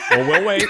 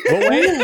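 First: Said in the usual way. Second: We'll wait said high and loud, falling; emphatic repeat. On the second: Acted. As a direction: punch We'll wait much higher and louder. Repeats line with big emphasis.

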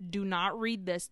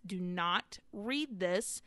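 First: Said in the usual way. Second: "Do not read this" drawn out slowly; slow emphatic warning. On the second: Retold or imitated.

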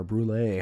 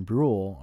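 First: "Brule" with an added ending, like "broo-LAY"; alternative pronunciation. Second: "Brule" as one syllable, rhyming with rule; first pronunciation variant. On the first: Broadcaster offering another way to say recruit's surname, "Brule" as "broo-LAY". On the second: Broadcaster offering one way to say recruit's surname, one-syllable "Brule". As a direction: say "Brule" like "brool", silent final e. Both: Shown as a demonstration. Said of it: "however you wanna say it".

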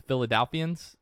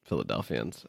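First: Philadelphians with a questioning rise; unsure pronunciation. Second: Philadelphians said soft and low, correcting; correct pronunciation. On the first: Host tries Philadelphians, unsure of the word. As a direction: try Philadelphians, testing it out. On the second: Cohost corrects the name, soft Philadelphians. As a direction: gently give the right form Philadelphians. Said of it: "Philadelphians, not Dalphians". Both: Shown as a demonstration.

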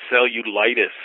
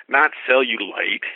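First: "cellulitis" with the full -itis ending, set against cellulite; correct medical term. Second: "cellulite" said slowly as the mistaken word; cellulite, the wrong word. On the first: Doctor corrects the patient, pointedly saying "cellulitis". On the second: Doctor corrects the patient, slowly saying "cellulite" as the wrong word. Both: Retold or imitated. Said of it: "Not cellulite, cellulitis".

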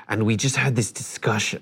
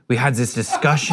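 First: Said in the usual way. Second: [name]. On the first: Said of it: "I don't know if he had an accent". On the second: Retold or imitated. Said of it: "but he's like".

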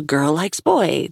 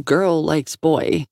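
First: Slow sarcastic woman. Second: Said in the usual way. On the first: Acted. Her line, quoted later by narrator.

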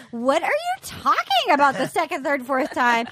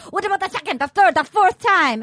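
First: Baffled woman. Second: Higher, insistent suitor impression; hammed-up pleading with punched ordinals; Benoit. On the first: Retold or imitated. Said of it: "And she's like". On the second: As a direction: press the question like an over-eager romantic. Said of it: "So then we have Benoit. He goes".

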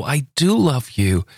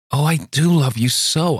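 First: "do" punched and falling, slow; insistent slow pleading on "do"; stress on do. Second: Pleading high with "love" held long; stress on love. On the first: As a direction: hit "do" in "I do love you." slowly. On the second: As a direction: lean on "love" in "Oh, I do love you so.". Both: A narrator's reading. Luli pleading her love.

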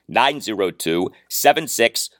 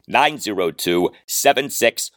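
The two takes are said the same way.

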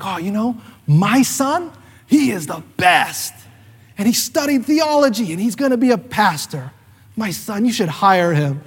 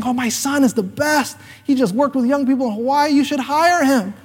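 First: Proud mother's sing-song brag; proud mom. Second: Higher gushing mom, slowing on the last line; proud mom. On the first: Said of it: "And she's like". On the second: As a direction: brag about her son like a proud mother. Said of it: "she said the, the whole thing". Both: Retold or imitated.

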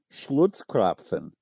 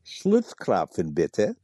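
First: Schlutzkrapfen dit lentement, syllabe par syllabe, à l'allemande; Schlutzkrapfen, prononcé lentement avec le SCH et le PF allemands; careful German word. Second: Schlutzkrapfen, bitte, slow, in a mock romantic German accent; a playful German lilt on Schlutzkrapfen, bitte. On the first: Shown as a demonstration. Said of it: "let me give you the word of all words". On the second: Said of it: "Say it again in your most romantic German accent".

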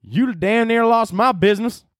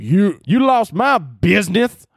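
First: Second go at a high, slow southern drawl; southern accent. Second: High, loud, slow southern drawl; southern accent. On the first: Retrying his impression of an angry commenter, southern accent. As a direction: put on a hammed-up, high-pitched southern accent. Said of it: "let me try one more time". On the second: Mimicking an angry online commenter, southern accent. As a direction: holler it slowly in an exaggerated southern accent. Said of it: "like, a southern accent". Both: Acted.

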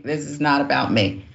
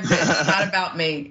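First: Said in the usual way. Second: Laughing. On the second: Real, not acted.

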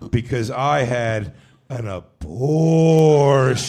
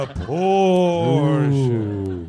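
First: Half speed, drawn out and deliberate; eerie slowed-down deadpan; spooky slow reveal. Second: Very slow, stretched-out repeat of "An abortion"; a light eerie drawl; spooky slow echo. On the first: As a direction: drag every word out like a ghost story confession. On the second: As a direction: linger on "An abortion" like a ghost story line. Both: Retold or imitated. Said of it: "she said it just like that".

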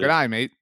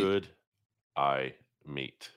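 First: Quick, run-together Australian "g'day mate"; normal-speed mock Australian greeting; Australian-sounding greeting. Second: Each word apart, low and flat; reluctant word-by-word reading with long gaps; deliberately slow. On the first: Host showing co-host how to say it, Australian-sounding. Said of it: "sounding like you're doing an Australian accent". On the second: Co-host dodging the accent trap, deliberately slow. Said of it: "at normal speed". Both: Shown as a demonstration.

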